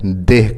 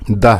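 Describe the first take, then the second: First: The vowel is an 'e' sound. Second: The vowel is an open 'a' sound. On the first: The speaker calls it wrong. "दाल के नीचे ज़ेर के साथ पढ़ते हैं" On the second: The speaker calls it right. "दाल के ऊपर ज़बर के साथ पढ़ा जाता है"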